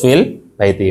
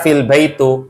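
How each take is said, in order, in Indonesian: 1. Kata terakhir diakhiri dengan vokal i. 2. Kata terakhir diakhiri dengan vokal u. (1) "Harus fil baiti" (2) "jangan baca fil baitu"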